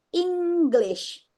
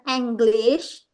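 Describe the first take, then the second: First: The first vowel sounds like i in sit. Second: The first vowel sounds like e in bed. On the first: The speaker calls it right. "Padahal bacanya English pakai I" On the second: The speaker calls it wrong. "bukan English"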